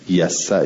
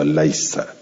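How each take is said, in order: First: The name is said without the extra L sound. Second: The name is said with an extra L sound.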